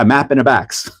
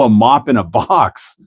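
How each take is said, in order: First: Mop sounds like map, Wisconsin style. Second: Mop is said with a Boston vowel.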